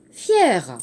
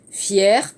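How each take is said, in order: First: "fier" falling to low; falling tune. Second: "fier" rising from low; rising tune. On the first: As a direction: say "fier" as the second form, dropping at the end. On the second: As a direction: say "fier" as the first of two forms, lifting at the end. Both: Shown as a demonstration. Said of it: "Attention, l'accent grave".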